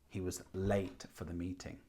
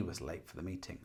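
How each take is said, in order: First: The stress is on the word late. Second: The stress is on the word he.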